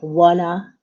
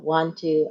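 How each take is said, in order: First: The two words are blended into wanna. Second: Both words are said separately and clearly. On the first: "They use connected speech like wanna" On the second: "instead of want to"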